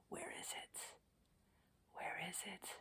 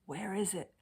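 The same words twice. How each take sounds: First: Much softer, breathy whisper. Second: Said in the usual way. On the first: Shown as a demonstration. Coach repeating the question to viewers in a whisper.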